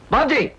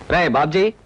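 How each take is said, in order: First: Raised-pitch call to a younger brother; insistent call. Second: Low-pitched call to a younger brother; low, stern calling-out; low summons. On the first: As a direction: call out the name to get his attention. Calls again after no answer. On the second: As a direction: call his name low, as an elder. Older brother calls the younger, first take. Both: Acted.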